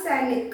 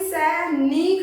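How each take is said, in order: First: The vowel in the second syllable is short. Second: The vowel in the second syllable is long. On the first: "न पे ध्वनि छोटी आ रही है" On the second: "ना पे बड़ी की मात्रा लगाते, क्योंकि ना पे ध्वनि लंबी आ रही है"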